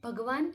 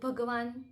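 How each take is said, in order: First: The word ends with a full n consonant. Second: The same.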